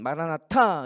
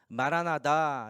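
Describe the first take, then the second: First: It is said forcefully, like a proclamation. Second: It is said calmly, without proclaiming force. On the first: It is a fervent prayer asking the Lord to come. "선포하듯이 막 하는 소망과 함충의 기도문으로 할 땐 마라나타 이렇게 하고" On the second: It expresses the hope that our Lord may come. "마라나다 이렇게 불러요"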